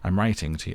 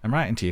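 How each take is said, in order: First: It is read in the reader's ordinary voice. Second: It is read in a put-on character voice.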